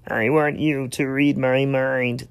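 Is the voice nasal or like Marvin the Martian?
Marvin the Martian. It sounds like Marvin the Martian.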